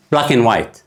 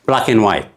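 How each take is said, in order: First: Said in the usual way. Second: "ብላክ ኤንድ ዋይት" run together, "ኤንድ" cut down to "ን"; reduced and. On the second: Shown as a demonstration. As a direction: glide fast from "ብላክ" to "ዋይት", swallowing "ኤንድ". ("ብላክ ኤንድ ዋይት" ብቕልጣፈ፣ "ኤንድ" ተጎዲሉ) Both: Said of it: "ድቕ ምባይ ናብ ዋይት ሰግራ ኣሎ".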